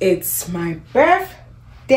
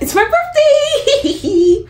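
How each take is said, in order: First: It is said flatly, with tired low energy. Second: It is said cheerfully, with lively energy.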